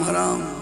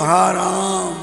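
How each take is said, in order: First: It is said quickly, run together as one word. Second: It is said slowly as two separate words. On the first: Something is forbidden or unbearable. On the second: A cry of despair to Ram.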